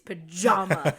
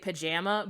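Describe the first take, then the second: First: It is said with a non-Chicago 'jaw' vowel. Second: It is said with a Chicago-style 'jam' vowel.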